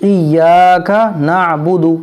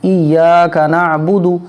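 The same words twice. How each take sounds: The two takes are said the same way.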